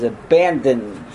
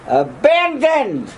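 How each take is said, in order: First: Said in the usual way. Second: ABANDONED drawn out slowly on a high pitch; emphatic ABANDONED. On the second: Real, not acted. Repeats word for emphasis.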